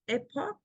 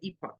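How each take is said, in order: First: The word is said the American way. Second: The word is said the British way. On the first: "in America, I think you guys say epoch" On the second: "the British English say epoch"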